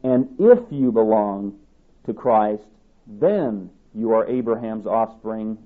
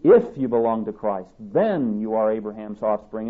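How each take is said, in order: First: "if" and "then" slowed and leaned on; stress on if and then. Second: "if" hit at the start, "then" hit to open the second half; stress on if and then. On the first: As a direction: lean hard on "if", then again on "then", slowly. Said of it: "listen to the emphasis that's here". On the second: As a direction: punch "if", then punch "then". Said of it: "The emphasis is on the word "if" and the word "then". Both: Shown as a demonstration.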